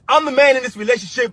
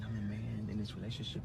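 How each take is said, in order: First: It is said loudly, yelling. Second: It is said softly and calmly.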